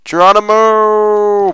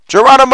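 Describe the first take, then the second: First: Drawn-out Geronimo yell. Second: Geronimo shout. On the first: Jumping off mountain. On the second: Jumping off a cliff. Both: Real, not acted.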